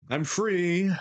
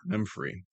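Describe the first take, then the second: First: I'm pitched high in triumph; gleeful relief. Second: Soft relieved echo. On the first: Streamer freed from the voice, high and gleeful. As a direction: sing out your freedom. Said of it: "relief after voice ends". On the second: Streamer repeating the relief quietly. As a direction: breathe it out relieved. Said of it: "repeated softer". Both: Real, not acted.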